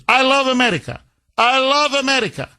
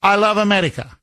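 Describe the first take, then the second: First: Higher, fawning put-on accent; mocking Zelensky. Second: Mocking Zelensky. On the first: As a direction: gush it like a flatterer. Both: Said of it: "All you say is".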